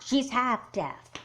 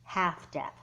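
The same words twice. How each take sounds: First: Slow and louder, She's half deaf with each word pressed; insistent correction. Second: Quick correction, HALF hit lightly; correcting stress. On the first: Girl insisting to friend her sister is half deaf, slow and pointed. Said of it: "whether she's deaf or not". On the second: Girl correcting friend about her half-deaf sister, quick stress. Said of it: "deaf sister". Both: Acted.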